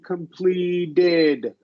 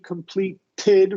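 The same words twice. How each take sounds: First: The middle T is soft and voiced. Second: The middle T is a strong puff of air. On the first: The speaker calls it right. "completed with our voice" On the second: The speaker calls it wrong. "We push air, more air out with the T completed, right? Which is incorrect"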